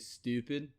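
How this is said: It is said in a Baltimore accent. "they'll say stupid"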